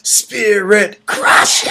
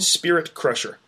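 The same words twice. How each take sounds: First: It is said in a harsh, throat-straining scream. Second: It is said in a plain, relaxed speaking voice. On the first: The speaker calls it right. "I hurt my throat" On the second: The speaker calls it wrong. "you're saying it wrong"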